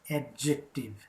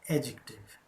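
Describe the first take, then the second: First: A clear d sound is heard in the word. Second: No d sound is heard in the word. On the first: The speaker calls it wrong. "Never pronounce this word as adjective" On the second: The speaker calls it right. "D is silent"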